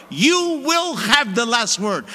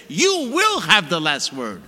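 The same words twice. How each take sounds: First: Slow, weighty, each word planted; firm declaration. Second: Slow, with weight on "will"; firm declaration. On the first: Priest modelling prayer to God, slow firm declaration. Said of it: "I tell the Lord". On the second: Priest showing how to pray, firm slow vow. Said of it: "I say". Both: Shown as a demonstration.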